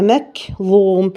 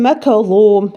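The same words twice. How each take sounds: First: مكظوم very slow, the ك unechoed; correct reading. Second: مكظوم with an echo on the ك; wrong qalqala. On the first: Teacher modelling the correct recitation. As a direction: draw مكظوم out smoothly. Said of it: "هي". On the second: Teacher imitating a mistake. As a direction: bounce the ك. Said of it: "ما ينفعش أقول". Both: Shown as a demonstration.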